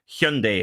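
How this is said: The ending sounds like the end of Sunday. The speaker calls it right. "Hyundai like Sunday"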